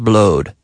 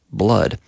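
First: "blowed" with a long O vowel; wrong vowel in blood. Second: "blood" with a short "uh" vowel; correct vowel in blood. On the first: Teacher warns learners off the mistake, "blowed" with long O. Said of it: "but we say blood, not, not". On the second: Teacher corrects learners' vowel, "blood" with short "uh". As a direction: say "blood" to rhyme with mud. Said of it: "but we say blood". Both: Shown as a demonstration.

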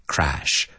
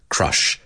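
First: CRASH with an open "ae" vowel; crash vowel contrast. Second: CRUSH with a short central "uh" vowel; crush vowel contrast. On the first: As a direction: say crash clearly with the vowel of "cat". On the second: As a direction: say Crush clearly with the vowel of "cup". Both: Shown as a demonstration. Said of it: "pronunciar la diferencia entre crash and crush".

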